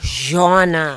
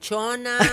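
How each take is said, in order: First: The name begins with a 'j' sound. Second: The name begins with a 'ch' sound. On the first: The speaker calls it right. "Madam Jonna" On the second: The speaker calls it wrong. "hindi Aling Chona"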